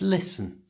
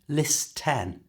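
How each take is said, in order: First: The T sound in the middle is silent. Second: The T sound in the middle is pronounced. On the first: The speaker calls it right. "the T in listen is silent" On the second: The speaker calls it wrong. "so it's not listen"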